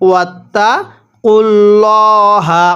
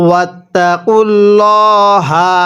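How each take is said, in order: No difference in how they are said.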